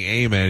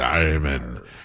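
First: It starts with a plain, open 'ah' sound. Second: It starts with a drawn-out, growled 'arr' sound. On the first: "instead of saying amen" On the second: "he said amen. Yeah. And now it's R"

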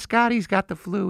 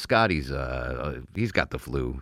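First: It is said in a put-on female voice. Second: It is said in the speaker's normal voice. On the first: The speaker calls it right. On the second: The speaker calls it wrong.

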